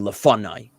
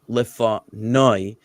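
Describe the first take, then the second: First: The stress is on the middle syllable. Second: The stress is on the last syllable. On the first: The speaker calls it wrong. "putting the emphasis under the fe here" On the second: The speaker calls it right. "I put the emphasis on that on that syllable, on that final syllable"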